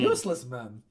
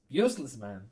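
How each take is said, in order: First: It is said loudly enough to startle. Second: It is said at a normal, quiet volume.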